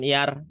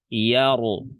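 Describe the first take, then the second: First: The r is light, with a thin vowel. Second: The r is heavy, with a full vowel. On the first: The speaker calls it wrong. "Jadi bukan yar ... tipis namanya" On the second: The speaker calls it right. "juga dibaca tebal"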